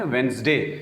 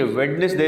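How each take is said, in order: First: وینسڈے as "wenz-day"; two syllables in وینسڈے; correct easy pronunciation. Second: ویڈنسڈے as "wed-nes-day"; three syllables in ویڈنسڈے; wrong spelling pronunciation. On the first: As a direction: drop the first d in وینسڈے. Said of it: "آسانی سے اس کو کہیں". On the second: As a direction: sound the first d in ویڈنسڈے. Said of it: "یہ ویڈنسڈے نہیں". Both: Shown as a demonstration.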